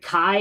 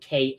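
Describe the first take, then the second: First: The vowel sounds like the word "eye". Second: The vowel sounds like the letter "A". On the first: "Kai as in like K A I" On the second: "K as in K A Y"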